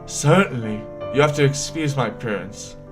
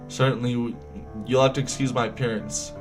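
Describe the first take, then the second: First: It is read in a put-on character voice. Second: It is read in the reader's normal voice. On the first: The speaker calls it right. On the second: The speaker calls it wrong.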